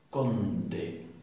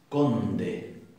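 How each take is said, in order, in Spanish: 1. La d es un sonido duro, cerrado. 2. La d es un sonido duro, cerrado.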